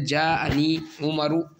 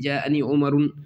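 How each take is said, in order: First: The name ends in a plain u vowel. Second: The name ends in a un sound. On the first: The name is treated as a diptote. The speaker calls it right. "कसरा और तनवीन नहीं आती" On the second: The name is treated as fully declinable. The speaker calls it wrong. "मुंसरिफ हम इसको माने तो उमरुन होना चाहिए था"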